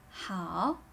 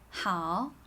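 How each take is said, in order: First: The pitch dips down and then rises. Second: The same.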